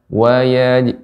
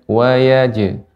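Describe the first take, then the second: Both takes have the same delivery.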